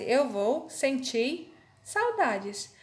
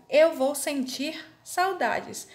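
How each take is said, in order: First: "sentir" said as senti, with no final R, very slowly; R dropped. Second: "sentir" ending on a clear R, said slowly; correct pronunciation. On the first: Teacher to students showing "sentir" without the R. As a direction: cut the R off "sentir", drawn out. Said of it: "Vai ficar assim minha frase". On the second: Teacher to students modelling "sentir" with its R. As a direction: sound the final R of "sentir". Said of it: "se eu escrever sentir sem o R". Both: Shown as a demonstration.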